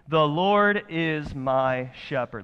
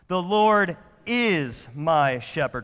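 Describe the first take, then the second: First: The word 'is' gets no special stress. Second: The word 'is' is strongly emphasized.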